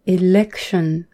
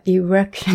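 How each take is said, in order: First: Election with a clear L, "i-lek-shun". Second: Election turned into erection, with an R. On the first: Shown as a demonstration. Speaker showing listeners the correct L in election. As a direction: keep the L in election distinct. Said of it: "LとR". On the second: Retold or imitated. Speaker imitating Japanese learners of English, R for L. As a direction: swap the L for R, "i-rek-shun". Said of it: "LじゃなくてRだと思って".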